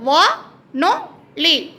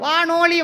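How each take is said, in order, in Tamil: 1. ஒவ்வோர் அசையும் தெளிவான இடைவெளியால் பிரிக்கப்படுகிறது. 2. கடைசி இரண்டு அசைகளும் இடைவெளியின்றி சேர்ந்து ஒலிக்கின்றன. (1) "அப்படி அழகாக பிரித்து படிக்கணும்" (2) "அப்படின்னு செய்யக்கூடாது"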